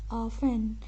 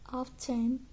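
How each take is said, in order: First: The word has an old-fashioned British pronunciation. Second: The word has a modern British pronunciation. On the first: The speaker is probably older. "It's old-fashioned" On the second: The speaker is probably younger. "the more modern often"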